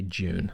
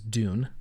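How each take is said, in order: First: It is said the British way, like 'June'. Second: It is said with an American 'd' sound.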